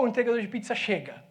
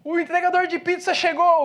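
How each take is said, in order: First: Said in the usual way. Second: Raised, louder announcing call; calling out an arrival. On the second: Retold or imitated. Pastor announcing to the church, a loud call. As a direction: shout the news to the whole church.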